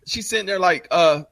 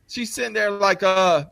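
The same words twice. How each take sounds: The two takes are said the same way.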